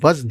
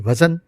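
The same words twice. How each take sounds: First: The z and n are joined with no vowel. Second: A short a vowel separates the z and n. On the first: The speaker calls it right. "असल में वो लफ्ज़ भी वज़न है" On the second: The speaker calls it wrong. "ज़बर के साथ पढ़ा जाता है, यानी वज़न जो गलत है"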